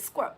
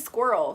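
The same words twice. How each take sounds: First: It is said in an imitated British accent. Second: It is said in a plain American accent. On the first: "people with a certain U K accent say the word squirrel" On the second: "They don't say squirrel"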